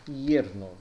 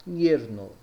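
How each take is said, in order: The two takes are said the same way.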